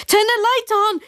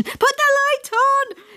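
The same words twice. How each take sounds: First: Panicked higher yell; dad yelling to his child in panic. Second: Higher, slow, drawn-out panicked yell; dad repeating the order, slower and higher. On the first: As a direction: bark it across the room. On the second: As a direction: stretch out the desperate order. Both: Acted. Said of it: "he yelled in my direction".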